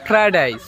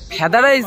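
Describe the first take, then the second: First: The first word is pronounced 'fried', with the r. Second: The first word is pronounced 'feda', without the r. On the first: The speaker calls it right. "ওটা ফ্রাইড rice" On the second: The speaker calls it wrong. "ফেদা rice না"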